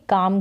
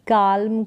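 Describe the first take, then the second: First: The L sound is left out. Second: The L sound is pronounced. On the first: The speaker calls it right. "इसको हम काम पढ़ेंगे काम करके" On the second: The speaker calls it wrong. "ना कि काल्म करके"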